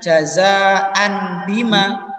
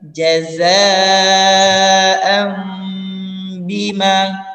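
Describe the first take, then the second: First: The nasal before the b is an n. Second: The nasal before the b is an m. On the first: It is read the ordinary way. "Harusnya mungkin dibacanya jazaan bima" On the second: It follows the recitation rule. "maka diubah menjadi mim juga"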